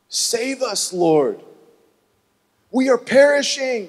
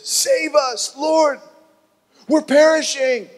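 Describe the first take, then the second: First: Pleading cry. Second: High, loud panicked yell in his face; desperate shout for rescue. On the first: Disciples wake Jesus. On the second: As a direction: scream it at the sleepy Lord. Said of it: "the guy yells in his face". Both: Acted.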